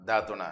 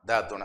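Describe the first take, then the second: First: The word is said in a shortened form. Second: The same.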